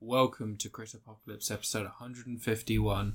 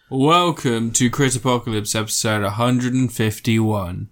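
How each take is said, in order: First: It is said quietly. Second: It is said loudly.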